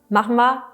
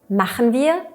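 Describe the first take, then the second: First: The two words are run together and shortened. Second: The two words are said separately in full.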